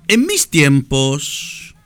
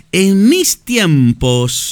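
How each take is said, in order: First: Slow, nostalgic drawl; drawn out slowly. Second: Higher and louder, stretched long; slow, raised and emphatic; louder drawn out. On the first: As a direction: stretch each word out slowly. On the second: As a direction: call it out slowly and loudly. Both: Shown as a demonstration.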